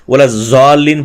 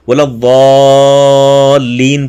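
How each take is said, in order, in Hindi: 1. शब्द की शुरुआत z ध्वनि से होती है। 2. शब्द की शुरुआत emphatic d ध्वनि से होती है। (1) "बोला जालीन पढ़ते हैं ... ये गलत हैं" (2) "वाद बोला वालीन पढ़ना है"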